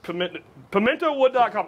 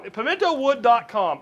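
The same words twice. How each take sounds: First: Said in the usual way. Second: Each syllable of Pimentowood spelled out slowly; slow careful repeat. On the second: Shown as a demonstration. Host repeating the sponsor's web address for viewers, slow and deliberate. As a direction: say Pimentowood dot com deliberately, like a sponsor plug. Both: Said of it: "I'm gonna say that again".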